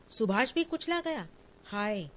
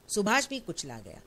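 First: High, stricken question in disbelief; the words break out in horror; shocked disbelief. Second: Said in the usual way. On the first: Acted. Annapurna hearing her son Subhash was crushed, shocked disbelief.

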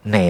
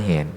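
First: แหน as one syllable "nae", silent h; correct reading of แหน. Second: แหน misread as "hen", h sounded out. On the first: Monk showing the reading in จอกแหน, แหน said as "nae". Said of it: "อ่านว่าแหนเหมือนกัน". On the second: Monk forbidding this reading to listeners, แหน misread as "hen". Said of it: "ห้ามอ่านว่าแหน". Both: Shown as a demonstration.

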